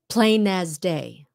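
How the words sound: The words run together smoothly as one phrase. The speaker calls it right.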